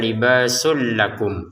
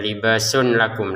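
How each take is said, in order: First: The n merges into the following l sound. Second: The n is clearly pronounced before the l. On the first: The speaker calls it right. "Tanwinnya masukin ke lam sehingga cara bacanya libasul lakum" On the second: The speaker calls it wrong. "bukan dibaca libasun lakum lagi"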